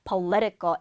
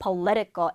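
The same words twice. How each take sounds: First: The stress is on the second syllable. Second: The stress is on the second syllable.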